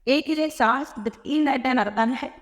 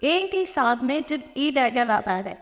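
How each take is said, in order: First: Said again slowly, word by word; slow repeat. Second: Said in the usual way. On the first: Shown as a demonstration. Teacher repeating the rule slowly so the class can follow. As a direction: spell out the rule slowly for the students.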